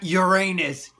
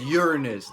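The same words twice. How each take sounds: First: It sounds like the phrase 'your anus'. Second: It does not sound like 'your anus'. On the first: "not Uranus. Get it? Your anus" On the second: "Notice he says Uranus"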